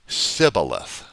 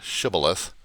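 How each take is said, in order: First: The word begins with a plain s sound. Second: The word begins with an sh sound. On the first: The speaker is an Ephraimite. "Ephraimites said Sibboleth without the H in there" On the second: The speaker is a Gileadite. "Gileadites would uh, pronounce the word Shibboleth"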